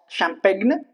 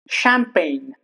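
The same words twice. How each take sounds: First: The G is pronounced. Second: The G is silent. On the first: The speaker calls it wrong. "it's not champagne" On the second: The speaker calls it right. "the G is obviously silent all the time"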